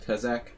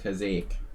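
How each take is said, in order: First: The name is said with an American accent. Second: The name is said Hungarian-style with a long E. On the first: "I could say it in an American way" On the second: "in a Hungarian way, with a long E"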